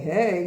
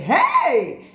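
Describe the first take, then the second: First: The word is said flatly, without emotion. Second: The word is said with a burst of emotion. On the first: The speaker calls it wrong. "You wouldn't say" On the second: The speaker calls it right. "you'd say, ... you must show a burst of emotion"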